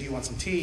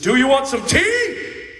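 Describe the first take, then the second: First: It is said in a calm, plain way. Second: It is said angrily, with force on tea.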